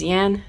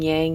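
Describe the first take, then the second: First: The word ends with a plain 'n' sound. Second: The word ends with an 'ng' sound. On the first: The speaker calls it right. "It is yan" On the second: The speaker calls it wrong. "I was calling it yang"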